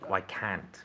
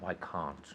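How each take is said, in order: First: It is said in the speaker's own non-English accent. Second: It is said in an English accent. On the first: "for me" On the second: "For an English person"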